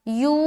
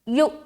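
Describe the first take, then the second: First: The vowel is long and smooth, without a catch. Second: The vowel is cut short with a sudden jerk. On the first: The speaker calls it wrong. "यू ऐसा नहीं पढ़ेंगे" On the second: The speaker calls it right. "यु यु यु यु यु यु इस तरीके से पढ़ना है"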